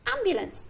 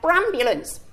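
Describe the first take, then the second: First: The word starts with a plain vowel sound. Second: The word starts with an added 'br' sound. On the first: The speaker calls it right. "Should we see if he can say it properly?" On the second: The speaker calls it wrong. "Is that right?"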